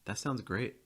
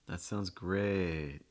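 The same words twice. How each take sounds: First: It is said in a plain, sincere tone. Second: It is said in a sarcastic tone. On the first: The speaker really means it. "The first time I'm going to read it normally" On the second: The speaker means the opposite. "the second time reading it again with a little bit of sarcasm"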